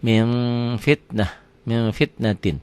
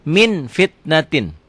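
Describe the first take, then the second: First: MIN held through the nose, lips slightly open, before fitnatin; nasal ikhfa. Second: MIN FITNATIN high, slow, clear n; written form. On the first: Teacher shows the reading, nasal hum on min. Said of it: "Bindeng tetap". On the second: Teacher reads it as written, clear n. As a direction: sound the N of MIN firmly. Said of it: "Dibacanya jadi". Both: Shown as a demonstration.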